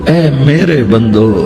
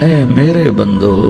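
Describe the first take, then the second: Both takes have the same delivery.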